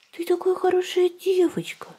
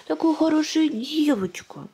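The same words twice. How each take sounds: First: High breathy whispered praise; squeaky praising a dog. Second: High, slow cooing praise; squeaky praising a dog. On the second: Praising baby. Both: Real, not acted.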